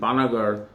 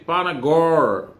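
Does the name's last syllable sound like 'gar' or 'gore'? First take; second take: gar; gore. First: The last syllable sounds like 'gar'. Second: The last syllable sounds like 'gore'. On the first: This is the town's real name. "It was Durgapur, then Panagarh" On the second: The name is playfully twisted. "just to give it a twist, I used to say Panagore"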